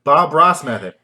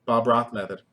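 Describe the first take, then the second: First: "Ross" said loudly with a clear s; careful retry. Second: "Ross" fumbled with a lisped th ending; tongue-tied. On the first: Host retrying the name they fumbled, carefully pronounced. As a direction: punch out "Ross" with a crisp final s. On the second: Host tripping over the painter's name, tongue-tied. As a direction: slur "Ross" toward "Roth". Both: Real, not acted. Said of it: "I cannot say Bob Ross".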